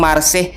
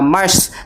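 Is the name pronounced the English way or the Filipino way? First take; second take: Filipino; English. First: The name is said the Filipino way. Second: The name is said the English way.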